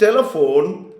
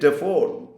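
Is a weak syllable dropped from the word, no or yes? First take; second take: no; yes. First: All syllables of the word are pronounced. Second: A weak syllable of the word is left out. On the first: "instead of saying telephone" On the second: "deleting or not speaking out weak syllables"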